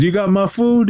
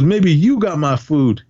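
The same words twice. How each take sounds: First: Higher-pitched "You got my food", as a challenge; questioning demand. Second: Slow retort, "you" punched; stress on YOU. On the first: Retelling a man challenging the other about food, questioning demand. Acted demand, answered by retort. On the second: Retelling a man turning the food question back, stress on "you". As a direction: throw it back, leaning hard on "you". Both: Retold or imitated.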